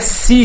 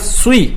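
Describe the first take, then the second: First: The s sound is plain and light. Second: The s sound is heavy and emphatic. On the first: The speaker calls it wrong. "Il ne faut pas lire si ça. Sinon, on est en train de lire sin" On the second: The speaker calls it right. "il faut lire sui"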